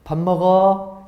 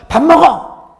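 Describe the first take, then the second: First: Gentle invitation. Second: 밥 먹어 barked high and loud; stern scolding. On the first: Pastor demonstrates a gentle 밥 먹어 to the congregation. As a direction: say 밥 먹어 gently like a loving parent. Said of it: "아주 이 부드럽고 상냥한 말이지 않습니까?". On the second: Pastor demonstrates a harsh, threatening 밥 먹어. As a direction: snap 밥 먹어 like a threatening parent. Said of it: "회초리라도 한 대 때릴 것 같은". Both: Shown as a demonstration.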